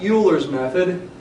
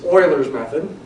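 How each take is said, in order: First: Euler begins with a 'you' sound. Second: Euler begins with an 'oy' sound. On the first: The speaker calls it wrong. "It's not Euler's method" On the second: The speaker calls it right. "It's Euler's method"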